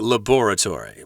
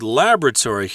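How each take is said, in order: First: It is said with a British accent. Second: It is said with an American accent.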